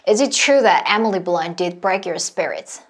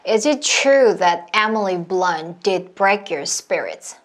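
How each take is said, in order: First: The sentence is spoken at a medium pace. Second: The sentence is spoken at a slow pace. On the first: "조금 더 빠르게" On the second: "이 상태에서 점점 점점 빠르게 가시는 거예요"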